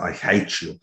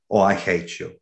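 First: It is said angrily, with strong emotion. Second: It is said flatly, without emotion.

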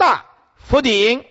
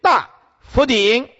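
First: 大 is set apart, and 佛顶 is read together. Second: The same.

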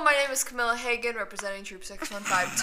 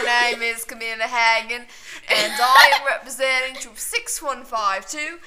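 First: It is said in her normal voice. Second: It is said in a put-on accent.

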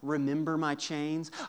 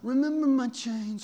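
First: It is said in his normal voice. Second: It is said in a Michael Corleone voice.

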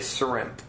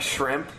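First: It begins with a plain 's' sound. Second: It begins with a normal 'sh' sound.

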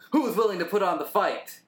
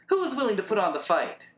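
First: The voice sounds hard and tough. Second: The voice sounds lighter and less tough. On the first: The speaker calls it wrong. "Why are you making him sound so tough?" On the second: The speaker calls it right. "That actually is way more [name] like"

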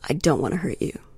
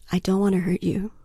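First: It sounds menacing, like a threat. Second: It sounds sincere and reassuring.

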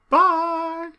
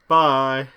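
First: The voice sounds quite feminine. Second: The voice sounds a bit thick.

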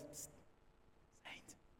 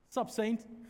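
First: It is said quietly and timidly in passing. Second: It is said boldly and with confidence.

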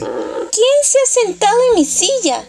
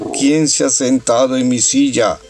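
First: A small, sweet voice for the little bear. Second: A big, deep, booming voice for Papa Bear.

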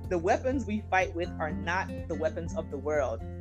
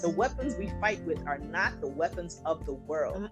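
First: It is read in a plain, ordinary reading voice. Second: It is read in a forceful, declaiming preacher's voice.

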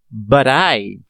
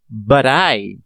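First: The t sounds like a soft d, words linked. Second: The same.

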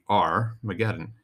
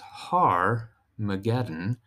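First: It begins with a plain vowel sound. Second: It begins with an h sound. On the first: "it's a soft beginning. You just pronounce the vowel" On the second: "put an H in front of it"

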